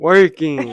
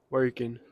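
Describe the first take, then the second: First: It is said with more enthusiasm. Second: It is said flatly, without enthusiasm.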